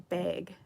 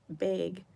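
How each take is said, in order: First: The word is said with a Utah pronunciation. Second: The word is said with a Utah pronunciation.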